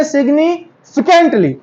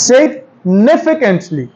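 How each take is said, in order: First: Significantly stressed on nif, sig-NIF-icantly, slow; the right way, weight on nif in Significantly. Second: Significantly stressed on the f, signi-FI-cantly, slow; the wrong way, weight on fi in significantly. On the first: Teacher shows the correct stress. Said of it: "stress है एन पे". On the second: Teacher shows the common wrong stress. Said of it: "हम देते हैं एफ पे stress". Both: Shown as a demonstration.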